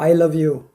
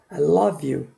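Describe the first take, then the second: First: The L is soft and lightly articulated. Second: The L is strongly and clearly exaggerated. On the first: The speaker calls it wrong. "우리 하는 식으로 I love you 보통 그렇잖아요" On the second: The speaker calls it right. "I 다음에 love 이런 기분입니다"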